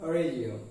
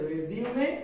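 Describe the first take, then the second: First: The word ends with an m sound. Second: The word ends with a vowel sound. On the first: It means to continue something. "স্বাভাবিকভাবে কোনো কিছু চলমান অবস্থা বোঝাতে হচ্ছে রেজিউম" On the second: It means a CV. "এর উচ্চারণ সিভির ক্ষেত্রে হচ্ছে রেজিউমে"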